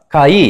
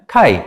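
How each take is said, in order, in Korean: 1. 모음을 두 개의 따로 된 음절로 발음합니다. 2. 모음이 하나로 이어져 한 개의 이중모음으로 발음합니다. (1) "카이 이렇게 읽는 것보다는" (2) "카이 이렇게 읽는 게 맞습니다"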